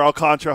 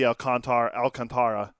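First: Alcantara squeezed to al-CON-truh; three-syllable Alcantara. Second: Alcantara with a full TAR before the final ra; four-syllable Alcantara. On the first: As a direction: say Alcantara with stress on CON, ending in tra. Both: Shown as a demonstration. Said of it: "however you wanna say it".

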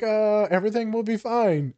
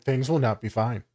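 First: High, bright mock comfort; put-on cheerful everything's-fine; fake reassurance. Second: Deadpan doom under your breath; inner honest voice. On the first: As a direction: pitch it up like soothing a client. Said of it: "Yeah, I'm like". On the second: Retold or imitated. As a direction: say it dry, the private truth. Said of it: "I'm like".

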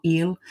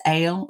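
First: El said like "eel"; long-E pronunciation. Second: El said like "ale"; long-A pronunciation. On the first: Scholar gives the alternative name form, long-E pronunciation. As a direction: say El with a long EE vowel. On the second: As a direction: say El with a long AY vowel. Offers two pronunciations of the name. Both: Shown as a demonstration.

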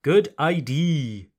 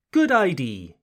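First: Good idea said as good I-D, final A dropped; wrong idea. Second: Good idea said as good I-D, no final A sound; French learner's Good idea, final A dropped; wrong idea. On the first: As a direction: repeat the learner's mistake on idea. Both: Shown as a demonstration. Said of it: "what was the mistake here?".

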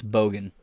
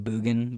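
First: "Bogan" with a long American o, as in boat; American pronunciation. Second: "Boogan" with oo as in boot; attempted Australian pronunciation. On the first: Streamer giving own American accent, "Bogan" with an oh. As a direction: say "Bogan" with an oh in the first syllable. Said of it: "in my American accent". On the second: Streamer trying the local way, "Boogan" with an oo sound. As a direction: round the first vowel of "Boogan" to oo. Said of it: "I know I'm not pronoun". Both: Shown as a demonstration.

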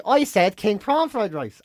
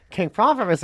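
First: Slowly, each word deliberate; slow pointed. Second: Said in the usual way. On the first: Pretend. Telling friend her planned revenge line, slow and pointed. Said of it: "I'm gonna say". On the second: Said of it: "when she goes".

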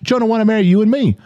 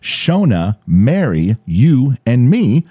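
First: "Shona wanna marry you and me" blurred into one fast, high phrase; run together. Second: "Shona, Mary, you, and me" spaced out, each item separate; slowed down. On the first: Host imitating friend's confusing delivery, words run together. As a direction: rush it in a mock Australian accent. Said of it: "he just ran it together like it was Chush". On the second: Host finally getting who's in the text, slowed-down list. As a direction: pick out each name slowly and firmly. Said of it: "So he slows it down". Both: Retold or imitated.

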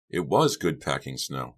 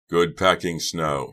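First: "was" leaned on to confirm; emphasis landing on "was", rest easy; stress on "was". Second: Slow, moderately loud call; mild, stretched-out shout. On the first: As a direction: narrate it, punching the word "was". Narrator confirms Doug's claim. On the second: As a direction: call it out slowly across the yard. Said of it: "he shouted". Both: A narrator's reading.

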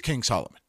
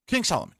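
First: Said in the usual way. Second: "King" hit high, falling onto "Solomon"; stress on King. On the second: Shown as a demonstration. Naming the one figure they talk about, with "King" pushed up. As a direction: punch "King" higher before "Solomon". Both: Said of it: "If you're gonna pick out".

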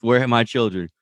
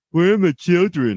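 First: Said in the usual way. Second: Put-on high, overdone Sokovian accent from Wanda; mock Sokovian accent. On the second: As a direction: ham up Wanda's Sokovian accent, much higher. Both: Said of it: "that accent really goes".

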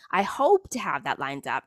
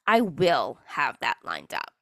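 First: Said in the usual way. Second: Slow, firm, stress on I and will; firm declaration. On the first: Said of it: "that's the difference between saying". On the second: Shown as a demonstration. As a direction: say I will have that lined up like a done deal. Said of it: "I'm gonna manifest it".

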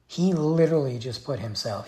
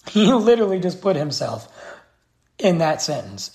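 First: Said in the usual way. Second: Higher and louder, exasperated; louder emphatic repeat. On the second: Real, not acted. Vlogger ranting at the governor, exasperated and louder. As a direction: hammer the point home.

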